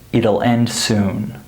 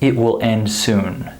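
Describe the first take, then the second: First: It will is contracted to one word, it'll. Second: It will is said as two full words. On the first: The speaker calls it right. "We would say" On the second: The speaker calls it wrong. "we wouldn't say"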